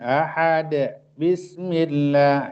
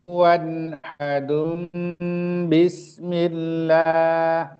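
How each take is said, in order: First: Ahad ends bare, without an -un ending. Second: Ahad ends with -un, joined to bismillah. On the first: The speaker calls it wrong. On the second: The speaker calls it right. "harus dibaca iklab"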